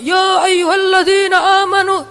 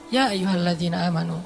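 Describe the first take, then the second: First: It is said loudly, like a forceful shout. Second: It is said calmly, in a relaxed voice. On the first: The speaker calls it wrong. "tergantung khotibnya kan ya. Padahal kadang ayat itu turunnya nggak gini" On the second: The speaker calls it right. "tapi santai turunnya"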